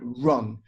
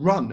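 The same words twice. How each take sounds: First: Said in the usual way. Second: Louder, higher snapped "Run"; retold angry order. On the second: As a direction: bark "Run" at her like a mock order. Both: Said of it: "She was literally angry at me".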